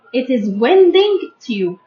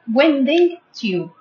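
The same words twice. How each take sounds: First: Said in the usual way. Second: "Winding tube" repeated slowly, each syllable clear; careful, drawn-out teacher repeat; slow model repeat. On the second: Shown as a demonstration. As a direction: say "Winding tube" slowly so pupils can copy. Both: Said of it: "Don't forget this word".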